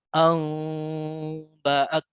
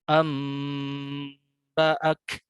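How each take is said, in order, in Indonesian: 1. Bibir tetap sedikit terbuka pada sengau. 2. Bibir tetap tertutup rapat pada sengau. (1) "Adapun yang furja saya contohkan" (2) "ini yang kita pergunakan ya"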